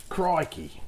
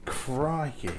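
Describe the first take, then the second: First: Badly faked Australian exclamation; higher-pitched mock-Australian; terrible Australian impression. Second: Slightly Australian-sounding exclamation; mild, unintended Australian twang; accidental Australian. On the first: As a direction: do a jokey, poor Australian accent. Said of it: "a terrible impression". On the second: Real, not acted. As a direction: let a hint of Australian slip in. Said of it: "not mean to sound Australian".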